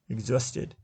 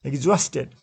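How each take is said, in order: First: "Exhausted" again as ex-HAUS-ted, softer, middle syllable strong; stress on second syllable. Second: "Exhausted" as ex-HAUS-ted, the middle syllable strong; stress on second syllable. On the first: Teacher repeats "Exhausted" quietly to show second-syllable stress. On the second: Teacher models "Exhausted" for students, second syllable stressed. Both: Shown as a demonstration. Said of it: "second syllable is stressed".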